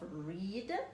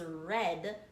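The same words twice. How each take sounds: First: The word has its present-tense pronunciation. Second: The word has its past-tense pronunciation. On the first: It happens now. "So past tense of read" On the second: It happened before now. "is read"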